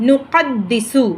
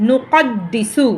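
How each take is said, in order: No difference in how they are said.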